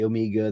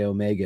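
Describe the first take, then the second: First: It is pronounced the British way. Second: It is pronounced the American way. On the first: "The Brits say Omega" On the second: "the Americans say Omega"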